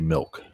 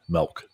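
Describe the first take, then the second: First: The vowel sounds like 'ih', as in 'milk'. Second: The vowel sounds like 'eh', as in 'melk'. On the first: This is how the speaker personally says it. "but I say milk, even though I'm a Marylander" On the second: This is how many people from Maryland say it. "a lot of Marylanders will say M E L K"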